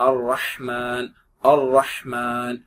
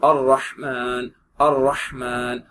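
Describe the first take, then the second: No difference in how they are said.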